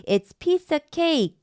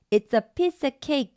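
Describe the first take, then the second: First: "cake" with a tense k, no breath puff. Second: "cake" with a held, tense k and no aspiration; tense k again. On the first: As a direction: say "cake" with a tight unaspirated k. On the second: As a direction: keep the k in "cake" tight and unbreathed. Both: Shown as a demonstration. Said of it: "된소리인 쌍기역 소리를 냅니다".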